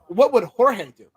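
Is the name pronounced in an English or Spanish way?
Spanish. The name is pronounced the Spanish way. The speaker calls it right.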